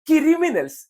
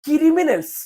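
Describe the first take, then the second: First: A vowel is inserted, giving 'kiri' at the start. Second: A vowel is inserted, giving 'kiri' at the start.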